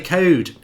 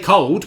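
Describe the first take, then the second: First: The l is dropped, so it sounds like code. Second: The word is said with a clear l sound. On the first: "we say code in Nottingham" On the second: "We don't say cold"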